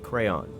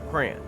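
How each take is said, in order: First: It is said as other American regions say it. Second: It is said as the Midwest says it. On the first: "There are places in America where you say crayon" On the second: "here in Indiana, the Midwest, we say crayon"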